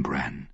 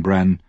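First: Much softer, lower, falling; hushed. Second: Said in the usual way. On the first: A narrator's reading. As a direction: say his name gently, almost gone. Jojen softly ends grim news.

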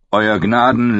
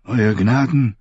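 First: Higher, oily courtier address; bow and flatter; fawning Janos. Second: Aged, cool formal address; cool old maester. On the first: Janos greets King Stannis, fawning higher voice. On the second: Maester Aemon addresses King Stannis, cool and aged. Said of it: "sagte kühl wie immer". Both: A narrator's reading.

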